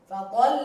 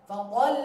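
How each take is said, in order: The two takes are said the same way.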